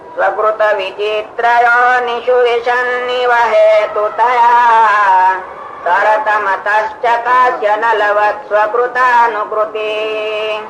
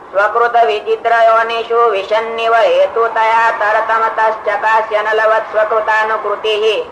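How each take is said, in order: First: It is phrased expressively, following its meaning. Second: It is read flatly, without phrasing by meaning.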